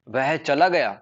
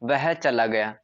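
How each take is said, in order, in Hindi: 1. यह आश्चर्यचकित, विस्मयी लहजे में कहा गया है। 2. यह सपाट, सामान्य कथन की तरह कहा गया है। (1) "तो हम ऐसे सरप्राइज, सरप्राइज आश्चर्यचकित हो रहे हैं" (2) "यह एक सामान्य सा वाक्य है, नॉर्मल सेंटेंस है"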